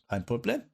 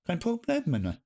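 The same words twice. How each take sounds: First: Said in the usual way. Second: "Kein Problem" much higher and rising; chirpy mock-German repeat; bright sing-song "Problem"; playful German. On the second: Shown as a demonstration. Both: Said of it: "German reply".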